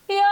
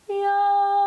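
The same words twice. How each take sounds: First: It is said loudly. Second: It is said softly.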